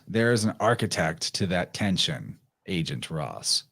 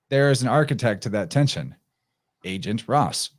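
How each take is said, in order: First: Agent Ross sounds like a plain name addressed. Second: The emphasis shifts, setting agent apart from Ross. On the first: The line speaks to a person named Ross. "he says to Agent Ross" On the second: Intelligence agents are the architects of the tension. "if you just c- change the emphasis"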